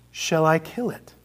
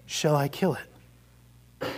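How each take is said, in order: First: Said in the usual way. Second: Slow, soft, grave question; solemn angel. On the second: Acted. Angel quietly offering to kill the lizard, slow and grave. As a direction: ask it slowly and gravely, leaning in.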